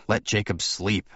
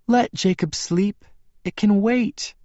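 First: Said in the usual way. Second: High, slow woman's voice; slow high-pitched plea; Bella's character voice. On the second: A narrator's reading. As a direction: pitch it well up and draw it out. Bella's voice, then echoed by narrator.

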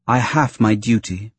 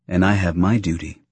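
First: "I HAVE my duty", weight on have; stress on HAVE. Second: "And I have MY duty", weight on my; stress on MY. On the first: Senator states her obligation to the captain, stressing HAVE. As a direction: lean on HAVE, then let "my duty" follow. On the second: Captain assures the Senator of his own obligation, stressing MY. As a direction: answer back by leaning on MY. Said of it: "Typho assured her". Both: A narrator's reading.

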